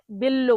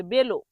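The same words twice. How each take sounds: First: বেল্লো with a heavy doubled l; mispronounced Italian. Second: বেলো with a single light l; normal pronunciation. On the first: Teacher showing the same mistake as bella, mispronounced. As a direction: press on the ll in বেল্লো. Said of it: "ভুল উচ্চারণ মানুষ কিভাবে করে". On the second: Teacher correcting learners to the normal form, light l. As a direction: say বেলো without doubling the l. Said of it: "normal উচ্চারণ করতে হবে". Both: Shown as a demonstration.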